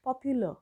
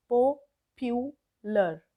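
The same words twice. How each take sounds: First: Said in the usual way. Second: Popular split slowly into po, pyu, lar; three drawn-out, separate beats on popular; syllable by syllable. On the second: Shown as a demonstration. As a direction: sound out popular with a pause after each syllable. Teacher breaks word into syllables.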